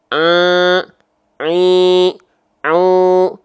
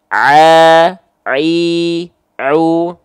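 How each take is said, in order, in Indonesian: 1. Suaranya bocor lewat hidung, terdengar sengau. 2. Suaranya berasal dari tenggorokan, tidak sengau. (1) "ada suara yang melipir ke rongga hidung" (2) "Pastikan tepat dari bagian tengah tenggorokan kita"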